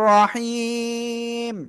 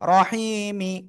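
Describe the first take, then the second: First: It ends on a bare m, long vowel stretched. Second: It ends with a short i vowel after m. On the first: The reader stops at this word. "এক আলিফ মদের পরের অক্ষরে থেমে যাচ্ছি, তিন আলিফ টান হবে" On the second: The reading continues on to the next word. "মিম জের মি"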